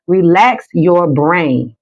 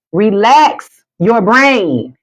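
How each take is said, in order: First: Slow, drawn out; slow soothing instruction; slow relax cue. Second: Very slow and drawn out; slow soothing repeat; slower, higher relax cue. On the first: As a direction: stretch each word out calmly. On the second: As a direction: lift it and stretch every word. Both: Shown as a demonstration. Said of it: "One more time".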